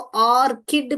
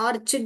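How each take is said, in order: First: The middle consonant is a k sound. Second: The middle consonant is a ch sound. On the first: The speaker calls it right. "यहाँ पर क क का ये वाला स्वर ही आएगा" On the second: The speaker calls it wrong. "ऑर्चिड नहीं बोलते हैं"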